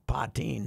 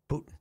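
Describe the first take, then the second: First: The name ends with a long 'teen' sound. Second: The name ends with a short 'tin' sound. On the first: This is how the woman herself says her name. The speaker calls it right. "She pronounces it Patine" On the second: This sounds like the Russian leader's name. The speaker calls it wrong. "not a Putin"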